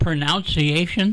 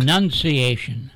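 First: "Pronunciation" said as pro-nounce-ee-ation, rising; wrong pronunciation. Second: "Pronunciation" with NUN as the second syllable; correct pronunciation. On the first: Co-host echoes the host's slip, "Pronunciation" said pro-NOUNCE-iation. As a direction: query "Pronunciation" with NOUNCE as the second syllable. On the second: Co-host corrects the host, "Pronunciation" said pro-NUN-ciation. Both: Shown as a demonstration. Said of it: "You don't call it pronunciation".

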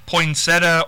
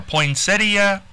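First: Poinsettia said as poin-SET-uh; shortened pronunciation. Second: Poinsettia slowly as poin-SET-ee-uh; full pronunciation. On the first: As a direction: leave out the i near the end of poinsettia. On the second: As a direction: sound the i before the final a in poinsettia. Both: Shown as a demonstration. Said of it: "what do they say more".

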